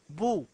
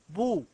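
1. المقطع الأول فيه الضمة. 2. المقطع الأول فيه الضمة.

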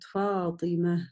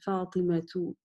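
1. Имя заканчивается на мягкое h. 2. Имя заканчивается на полное -tu.

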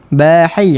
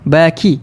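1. Konsonan di tengah adalah h lembut yang berdesah. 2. Konsonan di tengah adalah bunyi k biasa. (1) "kadang-kadang dia akan bunyi huruf ha. ... Dia tak sampai" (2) "Ataupun huruf kaf"

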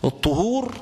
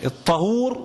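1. الحركة الأولى هي صوت 'u'. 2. الحركة الأولى هي صوت 'a'. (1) "الطهور اللي هو المقصود به الوضوء والتطهر الشرعي" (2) "الطهور مقصود به الماء"

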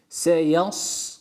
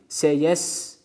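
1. İkinci sesli harf açık 'a' sesidir. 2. İkinci sesli harf ön 'e' sesidir.

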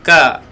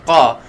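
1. Diawali dengan bunyi k yang ringan dan biasa. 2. Diawali dengan bunyi q yang berat dan dalam. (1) "Jangan ka" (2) "Qa tebalkan pangkal lidah kita"

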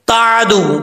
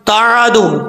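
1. बीच का व्यंजन झटके के साथ छोड़ा जाता है। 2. बीच का व्यंजन झटके के साथ छोड़ा जाता है।

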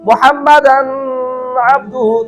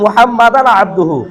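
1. n ধ্বনিটি লম্বা নাকি গুঞ্জনসহ ধরে রাখা হয়। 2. n ধ্বনিটি সরলভাবে বলা হয়, একটানা সোজা চলে যায়। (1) "কেউ যদি বলে মুহাম্মাদান আবদুহু, তার উচ্চারণ ভুল" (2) "একটানে"

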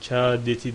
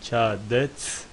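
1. Kelime sonradan eklenen bir ünlüyle bitiyor. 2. Kelime t ünsüzüyle bitiyor. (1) "Kâdeti değil" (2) "Aslı bu"

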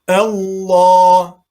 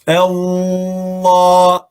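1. l sesi hafifçe geçilir. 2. l sesi tutulur ve uzatılır. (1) "Sadece lem harfini tatlı bir şekilde kendi okuyuşunu, sıfatını, özelliğini gösterip geçiyoruz" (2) "bu tarzda tutmuyoruz. Allah şeklinde yapmıyoruz"

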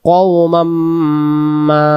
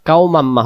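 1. শেষের 'ma' স্বরটি লম্বা করে টানা হয়। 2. শেষের 'ma' স্বরটি ছোট রাখা হয়। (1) "মা আমরা টান দিয়ে ফেলবো, এখানে 3 আলিফ নেওয়ার নিয়ম আছে" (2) "কওমাম্মা হবে না"

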